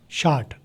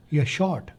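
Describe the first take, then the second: First: शार्ट with an open "aa", softly; American short. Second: शॉर्ट with a rounded "aw", softly; British short. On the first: Teacher contrasting American शार्ट, softly spoken. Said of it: "American वाले शार्ट". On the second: Teacher contrasting British शॉर्ट, softly spoken. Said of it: "British वाले शॉर्ट". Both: Shown as a demonstration.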